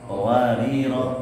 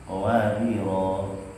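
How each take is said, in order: First: The final vowel is cut short. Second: The final vowel is held long. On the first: The reader continues without stopping. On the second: The reader stops at the end of the verse. "Yang akhir ayat berarti dibaca panjang"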